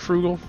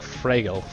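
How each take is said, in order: First: The first vowel sounds like 'oo' in frugal. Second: The first vowel sounds like an 'a' sound. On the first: The speaker calls it wrong. "Would you say Frugal to say that name?" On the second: The speaker calls it right. "I think it's the same, but with an A. That's probably the best way to say it"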